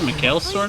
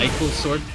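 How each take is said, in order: First: The name is said as three-syllable Mikhail. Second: The name is said as two-syllable Michael. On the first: The speaker calls it right. "the proper pronunciation" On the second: The speaker calls it wrong. "I know it's not correct"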